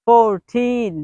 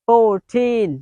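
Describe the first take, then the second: The two takes are said the same way.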